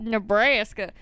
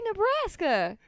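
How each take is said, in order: First: "Nebraska" mimicking the outsiders' way; mock how others say "Nebraska"; mocked pronunciation. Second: Said in the usual way. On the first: Native imitating how teasers say her state, mockingly. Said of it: "Nobody from Nebraska says Nebraska". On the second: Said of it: "We say Nebraska".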